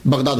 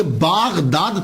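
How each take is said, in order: First: Said in the usual way. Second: बागदाद slow, the first syllable drawn out long as baa; careful, slow बागदाद with long aa; original pronunciation. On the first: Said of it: "बगदाद हो गया". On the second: Shown as a demonstration. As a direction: lengthen the alif in बागदाद. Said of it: "अलिफ गिर गया".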